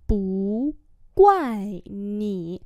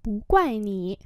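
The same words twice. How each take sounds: First: Each syllable drawn out slowly; slow teaching repeat. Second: Said in the usual way. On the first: Shown as a demonstration. Teacher slowly models the phrase for students, drawn out. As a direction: spell it out slowly for learners. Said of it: "teacher repeats slowly". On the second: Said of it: "teacher models phrase at normal speed".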